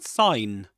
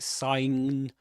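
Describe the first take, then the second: First: The extra consonant sound is left out. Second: An extra consonant sound is pronounced. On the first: The speaker calls it right. "without pronouncing the this letter" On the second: The speaker calls it wrong. "You don't say sign"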